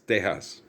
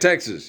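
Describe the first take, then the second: First: The name is said with Spanish pronunciation. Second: The name is said with English pronunciation. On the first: The speaker calls it right. "Spanish pronunciation" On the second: The speaker calls it wrong. "It wasn't Texas"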